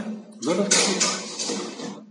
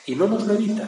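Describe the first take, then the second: First: Slow, breathy half-whisper repeat; slow hushed echo. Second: Higher and louder, driving the point home; emphatic declaration. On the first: Preacher echoing his point to listeners, slow and hushed. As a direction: let it sink in, drawn out and hushed. Echoing the same words softly. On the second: Preacher insisting to listeners he does not spare us. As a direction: proclaim it firmly, pitch raised. Preacher stressing a hard truth. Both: Real, not acted.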